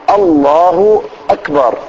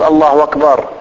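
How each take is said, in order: First: The second word starts with a glottal stop. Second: The second word starts with a w sound. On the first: The speaker calls it right. "لا الله أكبر، شوف" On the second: The speaker calls it wrong. "ما يصير الهمزة تخليها واو"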